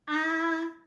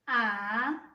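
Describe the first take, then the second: First: The pitch stays high and level throughout. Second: The pitch dips low, then rises slightly. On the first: It sounds like opening up for the doctor. "Now let's go back from the first tone" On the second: It sounds helpless. "You're helpless"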